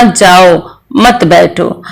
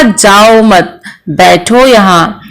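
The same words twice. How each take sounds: First: जाओ on its own, break, then मत बैठो together; group मत with बैठो, slowly, pausing before मत; pause after जाओ. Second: जाओ मत said as one slow phrase, break, then बैठो यहाँ; group मत with जाओ and pause before बैठो; pause after मत. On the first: Teacher quoting what the listener misheard, pausing after जाओ. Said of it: "श्रोता ने कुछ और समझ लिया है". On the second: Teacher quoting what the speaker meant, pausing after मत. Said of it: "उच्चारण में कारण में वक्ता ने कुछ और कहा है". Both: Shown as a demonstration.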